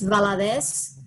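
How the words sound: The name is pronounced the Spanish way. "if you want to say it in Spanish"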